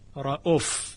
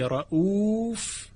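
First: The vowel after the hamza is short. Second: The vowel after the hamza is long. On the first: "یعنی واو بعد از همزه حذف شده، رؤوف به جای رؤوف" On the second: "در روایت حفص و بسیار از قرائات دیگه این کلمه رؤوف خوانده شده"

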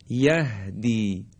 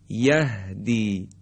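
Both takes have the same delivery.

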